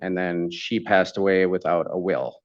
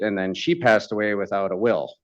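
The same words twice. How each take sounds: First: It is said more slowly. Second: It is said fast.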